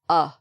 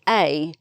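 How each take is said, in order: First: The article is reduced to a short 'uh'. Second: The article is said fully, like 'ay'. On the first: "normally we just pronounce it a" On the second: "some people will say A, which is okay if you're emphasizing it"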